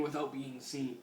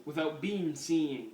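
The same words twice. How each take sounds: First: Said in the usual way. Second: "being seeing" said slowly and distinctly; deliberate rereading. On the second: Real, not acted. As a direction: spell out the odd "seeing" slowly.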